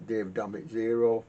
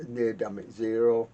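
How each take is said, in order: Both takes have the same delivery.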